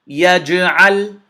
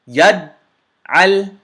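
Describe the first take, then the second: First: The j is released with an echoing bounce. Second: The j stops abruptly with no echo. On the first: The speaker calls it right. "we bounced the jim" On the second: The speaker calls it wrong. "If we didn't echo the jim"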